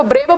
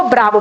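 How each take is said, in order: First: ब्रेवो with a long "ay" vowel; ब्रेवो with "bray" as first syllable; pronounced brevo. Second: ब्रावो with a long open "aa"; ब्रावो with "braa" as first syllable; pronounced bravo. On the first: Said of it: "कुछ लोग इसको ब्रेवो पढ़ते हैं". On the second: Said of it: "कुछ लोग इसको ब्रावो पढ़ते हैं". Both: Shown as a demonstration.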